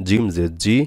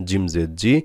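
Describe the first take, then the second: No difference in how they are said.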